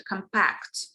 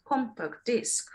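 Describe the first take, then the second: First: COMPACT with a weak first syllable and the weight on PACT; stress on second syllable. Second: COMPACT DISC with the weight moved forward onto COM; shifted stress. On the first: Teacher showing one word alone, compact stressed on PACT. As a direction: say comPACT, leaning on the end. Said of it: "stress might be on the second syllable". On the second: Teacher showing two words together, compact disc stressed on COM. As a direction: slowly say COMpact disc, a full first vowel. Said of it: "the stress shifts". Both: Shown as a demonstration.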